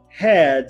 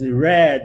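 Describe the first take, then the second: First: The word begins with a breathy h sound. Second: The word begins with an English r sound. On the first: The speaker calls it wrong. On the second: The speaker calls it right.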